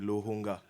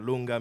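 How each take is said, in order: First: The name is said with an h sound. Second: The name is said without an h sound. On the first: The speaker calls it right. "il y a un H" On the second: The speaker calls it wrong. "c'est pas Longa"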